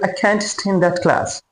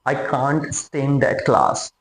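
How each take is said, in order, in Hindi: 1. "can't" में सपाट "a" स्वर है, अमेरिकन शैली जैसा। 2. "can't" में खुला "ah" स्वर है, ब्रिटिश शैली जैसा। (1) "अमेरिकन इसी सेंटेंस को बोलेगा" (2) "ब्रिटिश लोग थोड़ा जो है माउथ को ओपन करके बोलते हैं"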